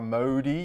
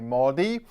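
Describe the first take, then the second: First: The o sounds like the o in grocers. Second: The o does not sound like grocers. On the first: The speaker calls it wrong. "you don't say the O as in grocers. You don't say" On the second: The speaker calls it right. "you say Modi"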